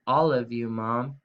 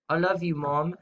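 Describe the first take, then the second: First: Said in the usual way. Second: Put-on British accent for a pun. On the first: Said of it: "but say it in your British accent". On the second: Shown as a demonstration. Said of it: "say it in your British accent".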